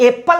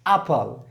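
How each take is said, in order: First: The first vowel is an 'eh' sound. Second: The first vowel is an 'ah' sound. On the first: The speaker calls it wrong. "हम लोग एप्पल नहीं कहेंगे" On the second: The speaker calls it right. "या यही उच्चारण सही होता है"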